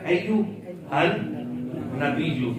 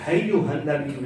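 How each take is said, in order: First: "ایو ہن نبیو" starting on clean alif, in pieces; right "ایو ہن نبیو", broken up deliberately; correct pronunciation demo. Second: "ایو ہن نبیو" with a breath before the first alif; wrong "ایو", h put at the front; mispronunciation demo. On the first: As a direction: open "ایو" on a bare vowel, pause, then "ہن". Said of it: "بلکہ پہلے الف ہے". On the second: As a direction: start "ایو" as hayyu. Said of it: "ایو ہن نبیو بھی پڑھتے ہیں". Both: Shown as a demonstration.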